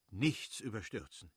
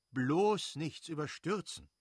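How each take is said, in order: First: Said in the usual way. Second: „bloß“ höher und lauter, langsam gesprochen; Betonung auf bloß. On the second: A narrator's reading. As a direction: eindringlich „bloß nichts überstürzen“ dehnen. Wiederholte Mahnung an den Schwager. (eindringliche, gedehnte Mahnung an den Schwager)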